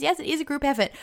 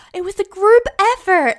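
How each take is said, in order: First: Said in the usual way. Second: Loud, high-pitched mock deflection; mock modest protest. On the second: Woman deflecting praise for her work, loud mock modesty. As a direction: blurt it out high and loud, sending up false modesty.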